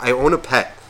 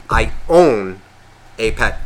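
First: Said in the usual way. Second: "I own", pause, "a pet", spelled out; stressed quote. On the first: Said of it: "sit there and be like". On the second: Shown as a demonstration. Picking apart cat owner's sentence, pause after a weighty "own". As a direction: lean on "own", then break before "a pet". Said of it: "by the sense of you saying".

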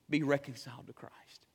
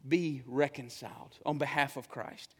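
First: Whispered plea. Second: Low, soft pleading; hushed plea. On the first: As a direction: whisper it, pleading. Verse repeated in a whisper. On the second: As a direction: beg gently under the breath. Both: Real, not acted.

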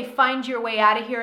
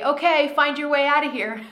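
First: Said in the usual way. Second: Louder, higher playful order; mock command. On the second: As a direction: bark the order like a drill sergeant, half joking. Teacher voices her own command.

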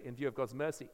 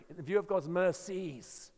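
First: Said in the usual way. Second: Slow, with "mercies" said in full as a plural; slow and deliberate, with the plural "mercies" clearly voiced. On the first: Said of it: "In English, it's a singular word because we say". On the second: Shown as a demonstration. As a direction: linger on "view" and land the plural "mercies". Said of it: "It's a plural word in the Greek".

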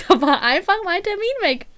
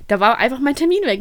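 First: Higher, laughing through the words; giggling retelling of the lost appointment; laughing disbelief. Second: Said in the usual way. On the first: Retold or imitated. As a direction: laugh out the outrage again. Repeats the punchline, laughing.

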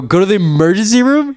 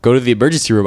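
First: Higher-pitched disbelieving question; incredulous echo. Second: Said in the usual way. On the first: Retold or imitated. Patient repeats the clinic kid's advice, incredulous. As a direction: throw it back in disbelief, pitch climbing.

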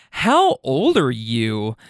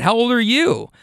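First: Slow, drawn-out challenge, lightly voiced; imitated offended woman. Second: Higher-pitched echo of her question; retorting question. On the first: Woman confronts the man who flipped her off, slow mock indignation. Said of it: "she goes". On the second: Retold or imitated. Driver answers the woman with her own question, higher retort. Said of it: "And I said".

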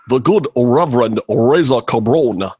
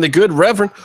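First: Put-on preacher-like impression, words leaned on; Jesse Jackson. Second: Said in the usual way. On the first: Host naming a viewer as the good Reverend, mock Jesse Jackson impression. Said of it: "in my best Jesse Jackson".

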